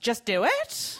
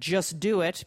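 First: The voice rises at the end, like a question. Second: The voice falls at the end, like a command.

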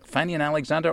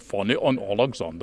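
First: It is said in a plain English accent. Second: It is said in a foreign accent.

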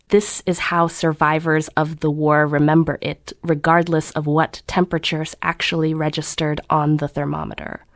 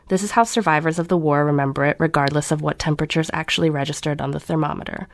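First: Every syllable is drawn out and savored. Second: It is read in a plain, neutral way.

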